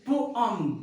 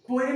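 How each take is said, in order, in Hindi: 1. दूसरा अक्षर 'um' जैसा सुनाई देता है। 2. दूसरा अक्षर 'em' जैसा सुनाई देता है। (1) "इट्स पोअम" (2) "पोएम नहीं होता है"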